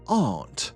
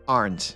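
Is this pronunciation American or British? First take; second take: British; American. First: It is said in a British accent. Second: It is said in an American accent. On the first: "Si vous voulez viser un accent britannique, vous direz quelque chose du style aren't" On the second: "Si vous visez plutôt l'accent américain, ce sera aren't"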